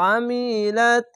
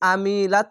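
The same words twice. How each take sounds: First: The word begins with a throaty constricted sound. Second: The word begins with a plain open vowel. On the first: The speaker calls it right. "আইনটিকে আমিলাত" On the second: The speaker calls it wrong. "আইনটিকে আমিলাত বলবেন না"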